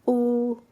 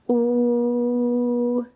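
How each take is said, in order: First: The vowel is held briefly. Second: The vowel is held for longer.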